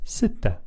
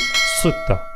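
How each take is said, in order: First: The s sound is soft and plain. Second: The s sound is heavy and emphatic. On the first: The speaker calls it right. "it's soft, it's regular" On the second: The speaker calls it wrong. "If I were to pronounce this using the emphatic, this would be sutta"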